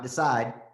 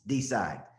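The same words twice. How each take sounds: First: The word is said smoothly, run together. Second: The word is split into two distinct syllables. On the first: The speaker calls it wrong. "It's not decide" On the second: The speaker calls it right. "the way we say it in Tennessee is decide, right? It's like two syllables"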